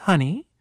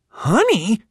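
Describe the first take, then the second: First: Said in the usual way. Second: Put-on high, incredulous kid's echo; stunned question. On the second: Wide-eyed boys hearing the teacher call him honey, stunned. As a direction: repeat it in disbelief.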